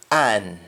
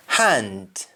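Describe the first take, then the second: First: AN for hand, no H or D; Jamaican pronunciation. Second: English-style HAND, full "nd"; English pronunciation. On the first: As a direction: drop H and D, just AN. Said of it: "You only stop at N". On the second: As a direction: HAND with H and final D. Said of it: "ends with N D in English". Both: Shown as a demonstration.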